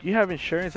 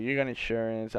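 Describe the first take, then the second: First: Raised-pitch acted question; mock questioning. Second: Said in the usual way. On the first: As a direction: play up her question, pitched high. Hammed-up first version of her question.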